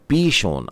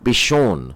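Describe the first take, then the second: First: The first vowel is long. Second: The first vowel is short. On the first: The speaker calls it right. "बड़ी ई की मात्रा लगी होगी इसमें" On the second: The speaker calls it wrong. "ये छोटा पी नहीं लिखिएगा"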